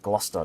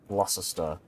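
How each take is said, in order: First: The middle 'ces' syllable is dropped. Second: The middle 'ces' syllable is fully pronounced. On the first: The speaker calls it right. "Gloucester is Gloucester" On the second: The speaker calls it wrong. "not Gloucester"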